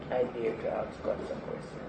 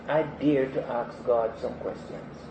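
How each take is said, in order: First: Quiet repeat. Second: Said in the usual way. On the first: Real, not acted. Repeated softer, falling.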